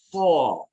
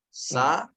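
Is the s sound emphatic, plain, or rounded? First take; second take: emphatic; plain. First: A heavy emphatic s with a raised tongue. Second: A plain s with an open a vowel. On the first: "Kemudian tambah itbaq" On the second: "baca dia dengan sa"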